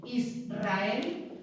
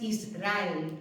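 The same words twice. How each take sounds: First: "Israel" with a trilled R after the S; "Israel" split slightly, is-rrael, with a multiple R; strong R. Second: Flick the R of "Israel" once, without any trill; "Israel" mispronounced with a weak tapped R; weak R, wrong take. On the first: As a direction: roll the R hard in "Israel". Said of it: "suena fuerte". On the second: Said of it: "No es Israel". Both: Shown as a demonstration.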